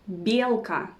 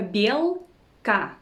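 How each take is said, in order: First: Said in the usual way. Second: Belka slowly, bel, then ka; syllable by syllable. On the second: Shown as a demonstration. Teacher teaching the word for squirrel, syllable by syllable. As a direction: split belka into two separate syllables.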